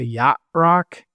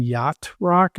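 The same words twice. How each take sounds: First: YACHT ROCK as yah rock; dropped T. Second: YACHT ROCK with the T sounded; T pronounced. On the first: Denver talker showing his habit, yacht rock with T dropped. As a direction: leave the T off yacht. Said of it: "dropping the, the v-, last vowel". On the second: Denver talker showing the full form, yacht rock with its T. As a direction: finish yacht on a clear T. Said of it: "if I'm saying yacht rock". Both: Shown as a demonstration.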